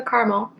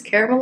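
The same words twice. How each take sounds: First: "caramel" as CAR-mul; "caramel" with the middle vowel dropped, CAR-mul; two-syllable pronunciation. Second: "caramel" as CARE-uh-mel; "caramel" with the middle "uh" kept, CARE-uh-mel; three-syllable pronunciation. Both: Shown as a demonstration. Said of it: "which one you use".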